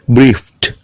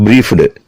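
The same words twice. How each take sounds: First: The ending is a t sound. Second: The ending is not a t sound. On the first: The speaker calls it right. "T sound" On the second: The speaker calls it wrong. "Not briefed"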